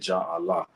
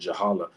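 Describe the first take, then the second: First: The two words are said as separate words. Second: The two words are run together as one. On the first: This is how some other people say the name. "some Rastas will call it Jah Allah" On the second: This is the speaker's own form of the name. "I pronounce it Jahala"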